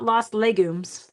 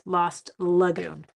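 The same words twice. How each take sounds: First: Legumes said as the food, slowly; wrong name. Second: Lagoon said very slowly and clearly, la-GOON; correct name. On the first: Correcting her misreading of the card base name, slow mock slip. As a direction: stress the mistaken word Legumes, slow. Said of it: "Lo-, not Lost Legumes". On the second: Setting viewers straight on the card base name, slow careful correction. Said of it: "not Lost Legumes, Lost Lagoon". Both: Shown as a demonstration.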